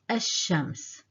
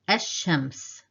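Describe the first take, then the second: First: The l is dropped and the sh doubled. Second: The l is dropped and the sh doubled.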